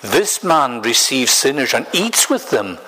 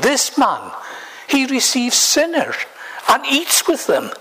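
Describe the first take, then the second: First: It is said in a plain, neutral tone. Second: It is said in an exasperated, grumbling tone.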